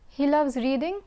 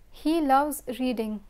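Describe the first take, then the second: First: The voice rises at the end. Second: The voice falls at the end. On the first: It is a question. "if I raise my voice at the end of the sentence, we have a question" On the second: It is a statement. "If I lower my voice at the end of the sentence, we have a declarative sentence"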